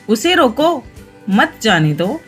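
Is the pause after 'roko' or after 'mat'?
after roko. The pause comes right after 'roko'.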